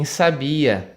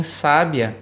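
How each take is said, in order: First: "sabia" slowly, with BI stretched and stressed; stress on penultimate syllable. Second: "sábia" slowly, with SÁ stressed; stress on antepenultimate syllable. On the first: Teacher explaining the penultimate stress, stressing BI in "sabia". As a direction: lean on the middle of "sabia": sa-BI-a. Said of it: "a sílaba tônica é a penúltima". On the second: Teacher explaining the antepenultimate stress, stressing SÁ in "sábia". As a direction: hit the first syllable of "sábia": SÁ-bia. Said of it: "a sílaba tônica é a antepenúltima". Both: Shown as a demonstration.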